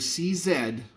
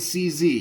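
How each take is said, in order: First: Z is said as "zed", the Australian way. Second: Z is said as "zee", the American way.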